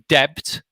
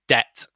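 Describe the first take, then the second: First: The B sound is pronounced in the word. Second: The B sound is left silent in the word. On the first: The speaker calls it wrong. "We don't say debt" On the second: The speaker calls it right. "This B is silent"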